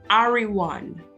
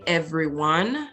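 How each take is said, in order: First: The first vowel sounds like a long 'a'. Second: The first vowel sounds like 'e' in 'bed'. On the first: "they would say everyone" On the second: "They would not say everyone"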